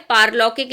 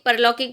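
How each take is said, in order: First: पारलौकिक opening on a long "paar"; correct long A. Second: परलौकिक opening on a short "par"; wrong short A. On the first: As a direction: stretch the first vowel of पारलौकिक. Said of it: "पारलौकिक लिखना होगा". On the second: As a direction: keep the first vowel of परलौकिक short. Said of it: "परलौकिक की जगह". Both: Shown as a demonstration.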